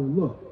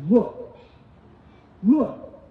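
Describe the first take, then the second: First: Said in the usual way. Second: Look, look snapped louder and higher; disrespectful son. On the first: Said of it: "But he replied to his father". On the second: Retold or imitated. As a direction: bark Look at his father rudely. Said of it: "He goes".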